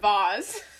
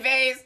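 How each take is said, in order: First: The word is pronounced the posh, fancy way. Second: The word is pronounced the plain, everyday way. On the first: The object is expensive and fancy. "As soon as it's like expensive and fancy, I'd be like" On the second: The object is ordinary and cheap. "if it's just like some regular old thing, I'll say vase"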